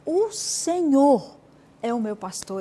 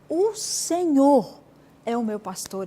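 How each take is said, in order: First: The word Senhor carries the emphasis. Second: The same.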